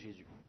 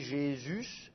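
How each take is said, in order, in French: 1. Le s final est muet. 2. Le s final se prononce.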